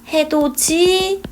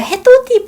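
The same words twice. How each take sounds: First: The final consonant changes into a j sound. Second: The final consonant links over as a plain d sound. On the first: The speaker calls it right. "발음하는 게 더 편합니다" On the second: The speaker calls it wrong. "해도 디가 돼야 되는데"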